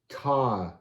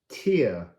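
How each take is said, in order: First: The vowel is a long I sound. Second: The vowel is not a long I sound. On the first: "because the line is giving you the long I" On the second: "I like to say tear"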